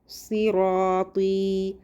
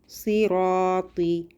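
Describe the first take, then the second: No difference in how they are said.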